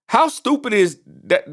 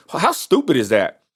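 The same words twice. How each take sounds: First: Higher, slow disbelief; incredulous repeat. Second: Slow words through a laugh; chuckling at how dumb it is; laughing scoff. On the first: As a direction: drag it out, pitched up in disbelief. Repeats the scoff louder. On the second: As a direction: laugh it off in disbelief. Scoffs at critics' logic. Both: Real, not acted.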